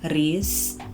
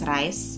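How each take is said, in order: First: The vowel sounds like ee. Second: The vowel sounds like eye. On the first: "I know a lot of you pronounce it as Reese" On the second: "I pronounce it as Rice"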